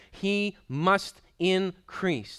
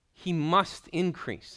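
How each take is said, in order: First: "He must increase" very slow, higher and louder; emphatic slow. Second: "must" leaned on, slow and higher; emphasis on must. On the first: Preacher stressing it is not optional, very slow and loud. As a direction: hammer each word slowly. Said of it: "This is not optional". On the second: Preacher insisting on the word must to the congregation, slow and stressed. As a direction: stretch the line, weight on "must". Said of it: "No, he says must". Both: Shown as a demonstration.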